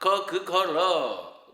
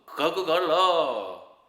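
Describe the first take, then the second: The two takes are said the same way.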